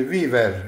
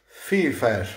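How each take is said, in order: First: "Viver" with Italian v and a rolled r; Italian reading. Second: "Fifer" with both v's turned into hard f sounds, German style; "Fifer" read German-style, v as f. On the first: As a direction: sound out "Viver" as an Italian word, v as in vino. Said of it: "eh, come si legge?". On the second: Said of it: "in tedesco sarebbe". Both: Shown as a demonstration.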